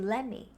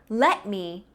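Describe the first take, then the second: First: The words melt together into one reduced form. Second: Each word is said fully and separately.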